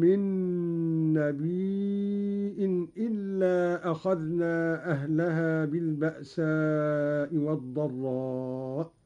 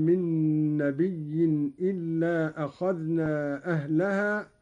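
First: نبي drawn out long, closed with a hamza, "nabii'in". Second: Said in the usual way. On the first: Shown as a demonstration. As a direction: slowly recite نبي as "nabiii-'in" with a glottal stop. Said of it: "قرأ قالون بهمز الياء هكذا".

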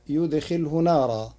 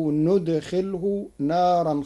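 First: يدخله said yudkhilhu, y at the start. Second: ندخله said nudkhilhu, n at the start; ندخله with nun. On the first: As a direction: begin يدخله with a clear y before نارا. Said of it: "قرأ ورش كلمتي يدخله بالنون". (يدخله بالياء) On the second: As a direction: open ندخله on n before نارا. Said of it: "كلمتي يدخله بالنون". (ندخله بالنون) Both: Shown as a demonstration.

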